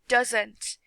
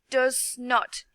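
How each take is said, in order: First: It is said quickly as one contracted word. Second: It is said slowly as two separate words. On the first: The speaker calls it right. "You need to say it fast" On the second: The speaker calls it wrong. "not like does not"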